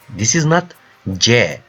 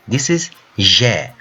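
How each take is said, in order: First: The consonant is a hard 'dj' sound. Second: The consonant is a soft 'zh' sound. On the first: The speaker calls it wrong. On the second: The speaker calls it right. "that sound, J sound"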